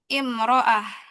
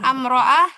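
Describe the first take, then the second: First: The word begins with an i vowel. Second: The word begins with an a vowel. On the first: The speaker calls it right. "tapi imro'ah" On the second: The speaker calls it wrong. "Bukan amro'ah"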